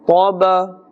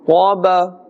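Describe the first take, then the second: Both takes have the same delivery.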